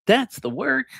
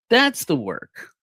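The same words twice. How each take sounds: First: "That's" jumps high with a rising end; emphatic rise. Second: "That's" stressed, whole phrase slow and falling; slow firm fall. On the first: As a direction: fling "That's" up high and let the phrase rise. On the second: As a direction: land "That's the work" slowly, falling. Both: Shown as a demonstration. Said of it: "repeats That's the work".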